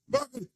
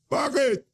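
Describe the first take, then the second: First: Much higher, softer incredulous bakit; exasperated squeak. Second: Said in the usual way. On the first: Real, not acted. Angry commentator repeating question.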